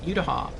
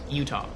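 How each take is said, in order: First: The word is said with more than two syllables. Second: The word is said with just two syllables. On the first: This is the speaker's own habitual pronunciation. "that's just how I pronounce it" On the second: This is the pronunciation someone else insisted on. "It's like it's Utah, two syllables"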